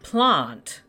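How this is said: It is said the South Australian way. The speaker calls it right. "being from the south of Australia, we say plant"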